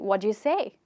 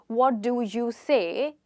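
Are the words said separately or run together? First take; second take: run together; separately. First: The words are run together like one word. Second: Each word is said separately and fully.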